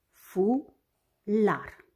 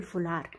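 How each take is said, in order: First: "Fular" as two separated syllables, fu - lar; despărțit în silabe. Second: Said in the usual way. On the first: Shown as a demonstration. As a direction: say "Fular" syllable by syllable with a clear gap. („Fular” rostit rar, pe silabe: fu - lar) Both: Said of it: "are două silabe".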